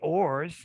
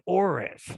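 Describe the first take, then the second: First: The word is said as one syllable. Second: The word is said with an extra final syllable. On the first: The speaker calls it right. "as in metals and ores" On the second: The speaker calls it wrong. "they put that additional syllable at the end"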